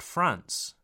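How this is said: The A vowel is short. The speaker calls it wrong. "not France"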